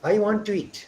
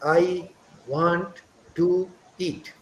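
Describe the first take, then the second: First: 'To' and 'eat' run together with a w-glide. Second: The words 'to' and 'eat' are said separately. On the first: The speaker calls it right. "How we speak is" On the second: The speaker calls it wrong. "we don't say like"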